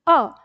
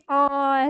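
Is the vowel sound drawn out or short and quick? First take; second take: short; drawn out. First: The vowel is said short and quick. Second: The vowel is drawn out slowly. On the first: The speaker calls it right. "जल्दी अ" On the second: The speaker calls it wrong. "ये नहीं अ ऐसे करते रहो"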